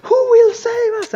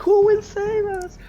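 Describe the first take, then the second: First: Very high, very loud theatrical plea; hammed-up cry for rescue at full volume; panicking inn staff. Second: High, raised mock-panic plea; parents playing along. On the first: Staff begging the room for a hero, loud stage panic. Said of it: "all of the staff goes". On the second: Parents playing along for the kids, mock panic. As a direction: echo the staged alarm in a high voice, less forceful. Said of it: "some of the parents are like".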